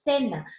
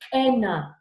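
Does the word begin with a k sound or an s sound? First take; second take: s sound; k sound. First: The word begins with a hissing s sound. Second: The word begins with a hard k sound. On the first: The speaker calls it right. "tiene el sonido de la S" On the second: The speaker calls it wrong. "no dices como en la K"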